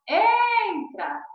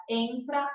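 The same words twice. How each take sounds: First: Entra with EN held high and loud; stress on EN. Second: Said in the usual way. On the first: Shown as a demonstration. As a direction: stretch the first syllable of entra, then drop. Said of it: "então, a sílaba tônica". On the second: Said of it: "a sílaba tônica é a penúltima".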